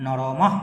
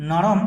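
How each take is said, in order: First: নরমঃ with an open o held after the m; slow demo of নরমঃ ending in a long "mo"; drawn final vowel. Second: নরম stopped on the m, no vowel after; নরম with a silent final vowel; closed hasanta ending. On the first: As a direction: stretch an extra vowel on the end of নরমঃ. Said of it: "অকে টানতাম". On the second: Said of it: "হসন্তটা আছে বলেই কিন্তু". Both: Shown as a demonstration.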